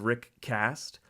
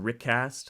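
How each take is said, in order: First: The two words are said separately. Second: The two words run together into one. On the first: "saying the two words separately" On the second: "naturally jump to"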